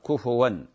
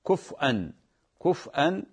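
First: The f takes a u vowel, no glottal stop. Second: The f has no vowel, then a glottal stop. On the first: "بضم الفاء" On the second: "إسكان الفاء مع الهمز"

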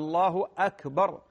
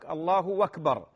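First: Akbar begins with a clear glottal stop. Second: Akbar is linked on with a w sound. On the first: The speaker calls it right. "همزة قطع" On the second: The speaker calls it wrong. "جعل لكلمة أكبر ابتدأها بحرف الواو ... هذا غلط"

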